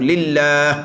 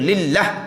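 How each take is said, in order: First: The vowel after the second l is drawn out. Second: The vowel after the second l is clipped short. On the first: The speaker calls it right. "kena jaga huruf alif selepas ada lam yang kedua tu" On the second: The speaker calls it wrong. "kita mati kita mana ada alifnya"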